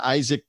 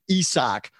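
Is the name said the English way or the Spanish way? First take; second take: English; Spanish. First: The name is said with English sounds. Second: The name is said with Spanish sounds.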